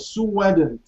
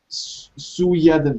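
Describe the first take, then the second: First: A w sound links Sue to hadn't. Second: A y sound links Sue to hadn't. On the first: The speaker calls it right. "and W is like whoa" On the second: The speaker calls it wrong. "here you can't really use the linking Y"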